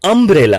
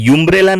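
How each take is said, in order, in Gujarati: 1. આ શબ્દ 'uh' અવાજથી શરૂ થાય છે. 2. આ શબ્દ 'yu' અવાજથી શરૂ થાય છે. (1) "આને કહીશું અમ્બ્રેલા" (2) "આને યુમ્બ્રેલા નહીં કહીએ"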